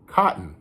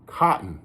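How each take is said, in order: First: The middle T sound is dropped. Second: The same.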